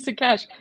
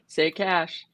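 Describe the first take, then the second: First: The first syllable is a short 'sa' sound. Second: The first syllable sounds like the word 'say'. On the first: The speaker calls it wrong. "I've been saying it wrong" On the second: The speaker calls it right. "Now I need to say it right"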